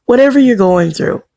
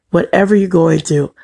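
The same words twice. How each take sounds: First: Higher and louder, rousing; emphatic call. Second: Said in the usual way. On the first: Acted. Speaker rallying viewers through hard times, raised emphatic call. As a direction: lift it up to grab the listener. Encouraging viewers, first of repeat.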